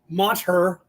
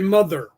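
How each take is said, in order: First: The t and h are sounded separately. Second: The t and h blend into one th sound. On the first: The speaker calls it wrong. "No, you would say mother" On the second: The speaker calls it right. "you would say mother"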